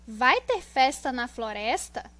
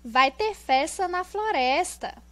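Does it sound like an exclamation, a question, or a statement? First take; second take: question; exclamation. First: It sounds like a question. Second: It sounds like an excited exclamation. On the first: "como se estivesse perguntando" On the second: "nós temos o ponto de exclamação"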